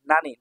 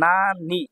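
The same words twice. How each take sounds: First: Said in the usual way. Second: নানি slow in two separate syllables. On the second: Shown as a demonstration. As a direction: stretch both halves of নানি. Teacher sounds out new word.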